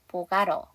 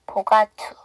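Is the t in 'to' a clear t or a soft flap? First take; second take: flap; clear t. First: The t in 'to' is a soft flap. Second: The t in 'to' is a clear t. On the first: "약화를 시켜버리면 보가러" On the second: "tt니까 앞에 t를 하지 마세요. 그러면 forgot to"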